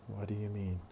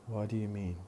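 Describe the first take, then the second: Both takes have the same delivery.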